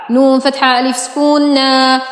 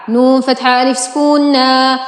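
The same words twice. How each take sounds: The two takes are said the same way.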